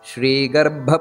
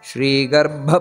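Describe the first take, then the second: Both takes have the same delivery.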